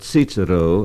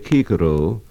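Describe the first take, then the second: First: The word begins with a ts sound. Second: The word begins with a hard k sound. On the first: This is the German pronunciation. The speaker calls it wrong. "or Cicero as in German" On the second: This is the classical Latin pronunciation. The speaker calls it right. "a classical scholar will say Cicero"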